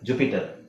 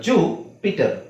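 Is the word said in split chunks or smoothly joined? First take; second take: joined; split. First: The word is said smoothly as one unit. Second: The word is split into two chunks.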